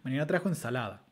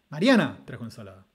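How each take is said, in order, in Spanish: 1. El acento principal cae en la última palabra. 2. El acento principal cae en la primera palabra. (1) "Con foco en ensalada y acento nuclear en la" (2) "Resulta bastante más raro decir Mariana, Suena como raro"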